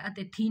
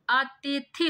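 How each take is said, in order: First: "अतिथि" ending in a long ee; wrong spelling read out. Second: "अतिथि" drawn out, ending in short i; slow, careful "अतिथि" with the last vowel short; correct form. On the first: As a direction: say "अतिथि" with its final i lengthened to ee. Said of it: "अतिथि नहीं होता". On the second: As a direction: say "अतिथि" slowly with a short final i. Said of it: "अतिथि होता है". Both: Shown as a demonstration.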